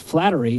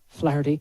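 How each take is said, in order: First: The middle has a 't' sound like 'flattery'. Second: The middle has an 'h' sound, no 't'. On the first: The speaker calls it wrong. "when you say it Flattery" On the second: The speaker calls it right. "his name's Flaherty"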